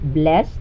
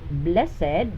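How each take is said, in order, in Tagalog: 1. Binibigkas ang salita sa isang pantig. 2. Binibigkas ang salita sa dalawang pantig. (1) "pronounced as blessed with one syllable if it is used as verb" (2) "pronounced as blessed if the function of this word in the sentence is adjective"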